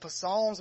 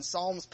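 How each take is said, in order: First: "Psalms" with the P sounded, puh-SALMS; comic mispronunciation. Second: Said in the usual way. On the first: Retold or imitated. Preacher quoting the clueless reader, mispronouncing "Psalms" as puh-salms. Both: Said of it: "he's calling Psalms".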